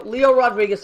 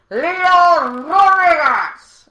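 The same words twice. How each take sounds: First: Said in the usual way. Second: Long, stretched, much higher and louder, like a ring announcer; announcer yell. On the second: Shown as a demonstration. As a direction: bellow the name out slowly for the crowd. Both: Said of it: "please yell".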